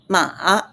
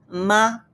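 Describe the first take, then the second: First: The pitch dips and then rises. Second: The pitch stays high and level. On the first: It means horse. "definitely horse" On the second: It means mother. "so first tone, ma means mother"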